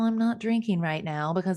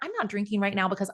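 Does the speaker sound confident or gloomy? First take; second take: gloomy; confident. First: It is said in a gloomy, deflated tone. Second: It is said in a confident, upbeat tone. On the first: The speaker feels defeated about the choice. The speaker calls it wrong. "I don't want you to sound like Eeyore" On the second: The speaker feels empowered by the choice. The speaker calls it right. "I want you to be empowered"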